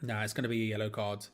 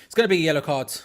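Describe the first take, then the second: First: Said in the usual way. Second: Louder, insisting on the call; emphatic. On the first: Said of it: "repeats call more firmly". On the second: Real, not acted. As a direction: stress gonna, say it with certainty. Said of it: "repeats call loudly".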